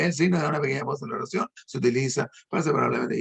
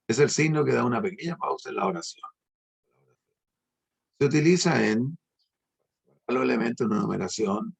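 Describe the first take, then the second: First: Rushed reading without pauses. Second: Measured reading, stopping after "oración" before "Se utiliza"; reading with pauses. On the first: Teacher showing a reader ignoring punctuation, rushed and run-on. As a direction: run "da una pequeña pausa en la oración" quickly straight into "se utiliza". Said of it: "se larga de un solo". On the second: Teacher modelling punctuation aloud, reading with clear pauses. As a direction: read "es el signo que da una pequeña pausa en la oración" evenly, then pause clearly. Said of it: "doy un, un tono diferente a como estaba leyendo".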